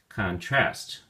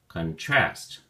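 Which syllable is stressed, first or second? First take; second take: second; second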